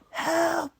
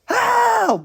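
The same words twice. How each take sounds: First: It is said quietly. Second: It is screamed loudly.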